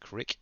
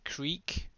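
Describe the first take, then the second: First: The word is said like crick. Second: The word is said like creek. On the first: The speaker calls it wrong. "they pronounce it as crick" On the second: The speaker calls it right. "this is Elm Creek"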